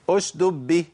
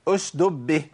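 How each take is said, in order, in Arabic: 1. تُحذف إحدى الدالين تمامًا. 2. تُحذف إحدى الدالين تمامًا.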